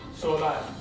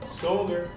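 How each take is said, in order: First: It is pronounced with Spanish sounds. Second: It is pronounced with English sounds. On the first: "and then I'm going to pronounce it in Spanish" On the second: "I'm going to pronounce it in English first"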